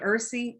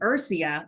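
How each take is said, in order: First: The word ends without a final 'a' sound. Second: The word ends with an audible final 'a' sound.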